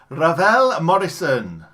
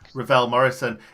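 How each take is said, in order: First: The name is said in a put-on voice. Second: The name is said in a normal voice.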